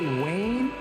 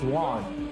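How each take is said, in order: First: The name sounds like 'Wayne'. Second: The name sounds like 'Juan'. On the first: The speaker calls it wrong. "I say Wayne" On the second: The speaker calls it right. "but it's Juan. The right way to say his name"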